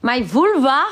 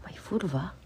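First: Surprised question. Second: Hushed, breathy whisper of "My vulva?". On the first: Repeating a viewer's odd comment. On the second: Repeating a viewer's word to the chat, whispered. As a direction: whisper "My vulva?" as if it's secret. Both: Real, not acted.

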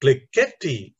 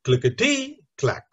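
First: Clickety-clack misstressed as click-ET-y clack; wrongly stressed clickety-clack, second syllable leaning out. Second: Clickety-clack misstressed as click-e-TY clack; stress on third syllable. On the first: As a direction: punch the ET in clickety-clack, pause before clack. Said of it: "stressing the second syllable". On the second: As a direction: lean hard on the TY in clickety-clack. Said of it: "or worse still". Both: Shown as a demonstration.

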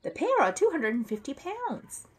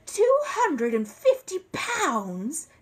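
First: High-pitched, matter-of-fact warning; high voice, falling firmly at the end; doubtful shop man. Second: High, loud, slow disbelief; aghast exclamation at a huge price; shocked outcry. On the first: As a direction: inform a customer in a lifted character voice. Crisp states the figure. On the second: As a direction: stretch out every word in astonishment. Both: Acted.

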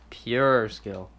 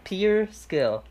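First: "Pure" with a y-glide, "pyoor"; lower, deliberate "pyoor" for "Pure"; exaggerated "pure". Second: "Pure" said like "pier", higher; "pier" mispronunciation. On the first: Shown as a demonstration. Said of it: "that's how you say pure". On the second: Real, not acted. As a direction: drop the y-glide so "Pure" becomes "pier". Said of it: "Pure is what you fish off".

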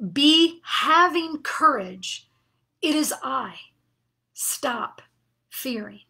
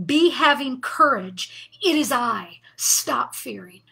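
First: Gentle authority. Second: Slow, firm and a bit louder, each phrase set down like a command; great authority. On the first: Jesus reassuring frightened disciples, slow and fading to a hush. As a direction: ease into the words, let the end fall to a hush. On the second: Jesus commanding his terrified disciples, with great authority. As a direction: speak as Jesus with calm command. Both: Retold or imitated. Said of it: "he says that with great authority".

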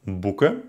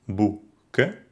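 First: Said in the usual way. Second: Boe-ken, split by a pause; boeken by syllables. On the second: Shown as a demonstration. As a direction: break boeken after oe. (boeken nach Silben getrennt) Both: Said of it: "Die Trennung folgt erst".

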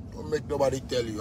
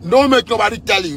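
First: Dropped low and much softer, almost under his breath; a lowered, menacing warning. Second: Louder warning. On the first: Ranting about the country's leaders, sinking to a low murmur. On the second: Ranting about the country's leaders, snapping back up loud. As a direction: back up to full voice, punching don't. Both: Real, not acted.

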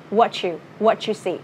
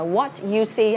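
First: "what you" as a slow "whatchu"; drawn-out model of "wha-chu see"; linked sounds. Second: "what you" kept apart, T then Y; no ch sound in "what you"; unlinked words. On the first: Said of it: "nó sẽ là âm ch". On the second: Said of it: "Không đọc là". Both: Shown as a demonstration.

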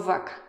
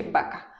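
First: "vaca" with a lip-teeth V; careful V in "vaca"; V sound. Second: "vaca" with a B; plain Mexican "vaca"; B sound. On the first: Mexican speaker contrasting B and V in vaca. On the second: Mexican speaker showing she says vaca with B. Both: Shown as a demonstration. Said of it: "¿Escucharon? Dije vaca".

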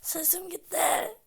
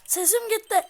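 First: Slow, breathless whisper from a lost voice; voiceless whisper. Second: Strained, cracking loud voice; voice gone. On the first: Gamer whispering that his voice is gone. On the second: Gamer straining his lost voice after yelling. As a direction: push through a lost voice. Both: Real, not acted.

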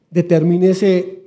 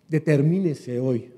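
First: "Determínese" louder and slow, drawn out; emphatic call. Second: Said in the usual way. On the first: Shown as a demonstration. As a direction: hammer down "Determínese", slowly. ("Determínese" más fuerte y lento)

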